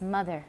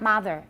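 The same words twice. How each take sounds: First: The first vowel sounds like 'uh'. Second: The first vowel sounds like 'ah'. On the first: The speaker calls it right. "it's mother, it's uh" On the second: The speaker calls it wrong. "Not mother, it's not ah"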